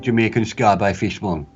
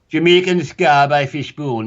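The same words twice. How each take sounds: First: It is said quickly and flatly. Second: It is said slower with more feeling.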